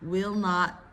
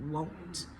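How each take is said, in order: First: It is said as two full words. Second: It is said as one contracted syllable. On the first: "Similar to do not, don't" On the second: "Similar to do not, don't"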